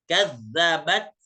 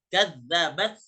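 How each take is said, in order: The two takes are said the same way.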